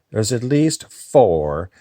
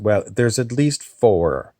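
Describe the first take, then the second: First: Higher, slower, odd other voice; different voice. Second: Said in the usual way. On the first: Acted. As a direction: let another voice take over. Repeated in a shifted voice.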